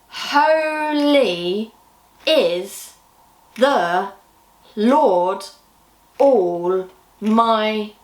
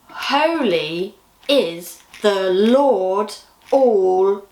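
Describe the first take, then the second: First: It is said more slowly. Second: It is said at a normal pace.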